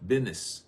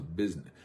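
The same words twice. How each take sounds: First: "business" said as "bidness", the s dropped to a d; down-home bidness. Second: Said in the usual way. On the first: Shown as a demonstration. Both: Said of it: "as we say back home".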